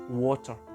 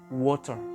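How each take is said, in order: The two takes are said the same way.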